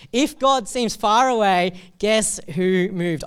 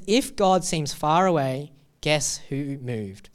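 First: Higher, louder, slow, leaning on god and guess; emphatic repeat. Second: Slow reading, pause before guess who moved; sign read plainly. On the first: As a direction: proclaim it slowly and boldly. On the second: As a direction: read the sign slowly, a touch of weight on guess. Reading the sign, first take. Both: Shown as a demonstration.

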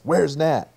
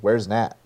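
First: High, loud yell of the name; yelled question. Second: Said in the usual way. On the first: Retold or imitated. Retelling the movie, Smart Hulk yells to everyone: loud yell. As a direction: shout it out, demanding an answer. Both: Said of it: "And then he yells".

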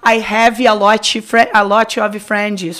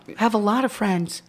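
First: Slow "I have a lot of friends" with an extra "i" after each final consonant; Brazilian-accented English. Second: "I have a lot of friends" run together with clean final consonants; English sounds. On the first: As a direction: say "friends" as "frendis" and "lot" as "lotchi". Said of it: "eles não vão falar". ("I have a lot of friends" aportuguesado, com "i" no fim das palavras) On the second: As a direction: say "friends" with no added vowels, a little softer. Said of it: "Eles usam o som do inglês". ("I have a lot of friends" com som de inglês, ligado)

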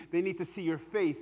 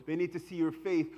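No difference in how they are said.

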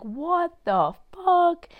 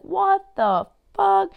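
First: High, slow, stretched out disbelief; incredulous shocked voice. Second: High, slow, loud stunned voice; imitating her disbelief. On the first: Pretend. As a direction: drag it out like she can't believe it. Mock reaction of her. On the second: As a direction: stretch it out as her, totally floored. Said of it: "she'd be like".

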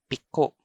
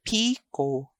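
First: Piko with short PI, stressed KO; stress on second syllable. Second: Piko with long PEE; PII-ko; stress on first syllable. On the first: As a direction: clip piko, weight on the last syllable. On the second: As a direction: stretch the first vowel of Piko. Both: Shown as a demonstration. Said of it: "I'm going to read".

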